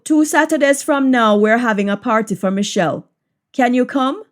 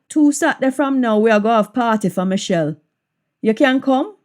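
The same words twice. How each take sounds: First: Said in the usual way. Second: Jamaican patois with a questioning rise. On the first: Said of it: "English version before patois". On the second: Shown as a demonstration. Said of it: "patois version of the line".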